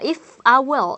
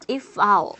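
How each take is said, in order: First: I and will are said as two full words. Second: I and will are shortened into one syllable. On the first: The speaker calls it wrong. "어떤 원어민도 I will 이라고 답 발음하지 않습니다" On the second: The speaker calls it right. "그냥 I'll"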